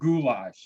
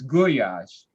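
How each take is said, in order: First: It is said with the usual English pronunciation. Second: It is said with a Hungarian-style pronunciation. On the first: The speaker calls it wrong. "it's not goulash" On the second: The speaker calls it right. "it's goulash. And that's how it's pronounced"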